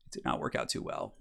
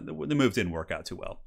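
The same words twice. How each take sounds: First: Dry whispered repeat under breath; whispered aside. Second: Said in the usual way. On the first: Real, not acted. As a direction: mutter it to yourself, deadpan. Muttered repeat of failed move.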